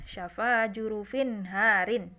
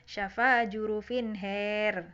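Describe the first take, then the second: First: The vowel after h is an open a. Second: The vowel after h is an e-like sound.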